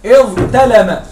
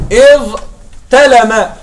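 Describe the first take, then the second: First: إذ تلم run together slowly as one phrase; joined, slow. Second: إذ, a pause, then تلم said as two separate words; split apart. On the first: Teacher showing the original form, slow joined إذ تلم. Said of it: "فالأصل تمامًا هكذا". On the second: Teacher to class, إذ and تلم split by a pause. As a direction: say إذ, stop, then تلم on its own. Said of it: "أنتم معي؟". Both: Shown as a demonstration.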